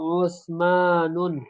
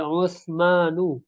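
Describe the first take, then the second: First: The name ends with an added n sound. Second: The name ends without an added n sound. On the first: The speaker calls it wrong. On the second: The speaker calls it right.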